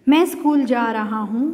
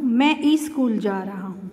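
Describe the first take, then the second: First: School starts directly with the s sound. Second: An added 'ee' vowel comes before school. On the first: The speaker calls it right. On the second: The speaker calls it wrong.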